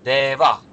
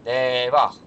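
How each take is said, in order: First: The word ends with a breathy h sound. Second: The word ends with a breathy h sound.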